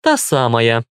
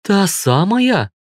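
First: Unimpressed, dismissive confirmation; scornful snort. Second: Slow, high-pitched astonished question; wide-eyed surprise. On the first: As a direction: confirm it with a mild huff. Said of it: "фыркнула Вика". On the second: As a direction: draw it out high in amazement. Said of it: "округлила глаза Юля". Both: A narrator's reading.

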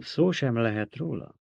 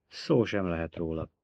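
First: "szó sem lehet róla" repeated with questioning lift; echoed question. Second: Said in the usual way. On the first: A narrator's reading. Emperor repeating Alia's refusal, "szó sem lehet róla" as incredulous question.

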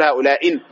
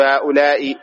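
First: "هؤلاء" wrongly ending in -in, ha'ula'in; "هؤلاء" with nunated kasra; wrong tanwin. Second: "هؤلاء" ending in bare -i, ha'ula'i; "هؤلاء" drawn out with kasra, no tanwin; single vowel ending. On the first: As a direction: add an n sound after final i in "هؤلاء". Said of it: "ما نقول هؤلاء". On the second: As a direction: say "هؤلاء" slowly with final i, no n. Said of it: "لا، نقول هؤلاء". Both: Shown as a demonstration.

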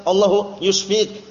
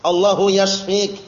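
First: Allahu yushfik with u in yushfik, the mistaken form; wrong Allahu yushfik. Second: Allahu yashfik with a clear short a in yashfik, said slowly; correct Allahu yashfik. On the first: Teacher warns students of the wrong form, slow demo. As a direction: Allahu yushfik said slowly as the error. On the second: Teacher shows students the right way, slow careful Arabic. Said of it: "Mengucapkannya harus benar itu". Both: Shown as a demonstration.

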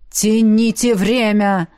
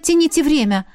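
First: Slow, weighty telepathic order; urgent command. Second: Higher, sarcastic repeat of the order; exasperated echo. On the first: Alien urges her by mind to stall, slow command. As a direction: drag out each word, ordering them to stall. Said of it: "ворвался голос Альена". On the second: The heroine mocks Alien's order in her head, exasperated. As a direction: throw the order back in disbelief. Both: A narrator's reading.

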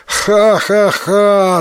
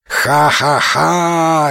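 First: High, slow acted ha-ha-ha; storyteller's spelt-out loud-hearted laugh; hearty guffaw. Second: Slow, drawn-out acted ha-ha-ha; storyteller's stretched follow-up guffaw; echoing laugh. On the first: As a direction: laugh out triumphantly in measured syllables. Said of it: "захохотал Тикуротаро". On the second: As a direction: echo a companion's laugh, long last syllable. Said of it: "эхом вторил ему Исикотаро". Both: A narrator's reading.

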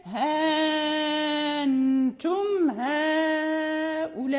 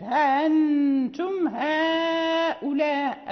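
First: ها أنتم recited very slowly, the long vowel of ها fully stretched; Warsh with substitution. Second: ها أنتم recited slowly with no alif inserted before أنتم; Warsh reading. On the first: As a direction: chant ها أنتم هؤلاء with a long, drawn out madd on ها. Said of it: "أما إذا أبدل". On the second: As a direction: chant ها أنتم هؤلاء slowly, no added alif, stress on أنتم. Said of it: "فلا يدخل الألف". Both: Shown as a demonstration.

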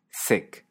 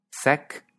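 First: Sec with a close, tight e, almost whispered; closed e. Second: Sec with an open e, said higher. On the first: Teacher contrasting the two Catalan e vowels, closed. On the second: Teacher contrasting the two Catalan e vowels, open. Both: Shown as a demonstration. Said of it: "tiene dos es".

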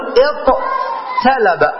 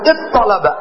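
First: "اطلب" split slowly, with a plain t after the ṭ; forma originaria scandita. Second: "اطلب" with one doubled emphatic ṭ; assimilated form. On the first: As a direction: say "اطلب" as iṭ-talaba, unmerged and drawn out. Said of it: "أصله هكذا". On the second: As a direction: say "اطلب" as iṭṭalaba, fully merged. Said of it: "وتدغم الطاء في الطاء". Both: Shown as a demonstration.

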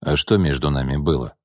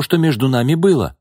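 First: Gordey calmly brushes off Nina's claim. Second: Higher, louder, hurt woman's voice; upset woman. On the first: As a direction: toss it back coolly. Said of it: "спокойно спросил Овчаров". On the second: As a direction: push the words at him, wounded. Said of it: "воскликнула Бакшеева". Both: A narrator's reading.

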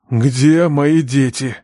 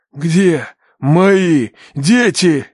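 First: Slow, measured demand; calm questioning. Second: Loud, very slow, word by word; menacing demand. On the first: Father questions the kneeling captives, calm and slow. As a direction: ask it calmly, drawing out each word. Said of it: "спокойно спросил отец". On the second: Father presses the captive for his children, menacing. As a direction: demand it forcefully, a long pause between words. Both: A narrator's reading.

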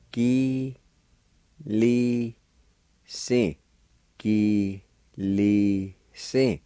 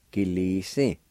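First: "Gi, li, si" drawn out, a pause after each syllable; slow syllable-by-syllable. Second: Said in the usual way. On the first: Shown as a demonstration. Teacher breaking down "Gi, li, si" for learners, slow and separated. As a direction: sound out "Gi, li, si" slowly, one syllable at a time. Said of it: "pronounce them out kinda slow". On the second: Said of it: "Gradually speed up your pronunciation".

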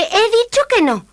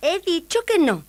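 First: High, loud refusal; princess shout. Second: High, firm princess; cartoon princess. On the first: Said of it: "gritó la princesa". (princesa que grita con voz aguda) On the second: Princess refuses again. (princesa firme con voz aguda) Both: A narrator's reading.

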